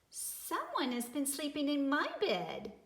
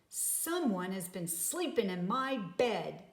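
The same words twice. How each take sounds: First: It is said in a wee small voice. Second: It is said in a great big voice.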